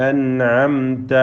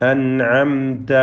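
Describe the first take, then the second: Both takes have the same delivery.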